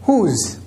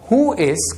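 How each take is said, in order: First: The words are joined into one contracted syllable. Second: Both words are said in full.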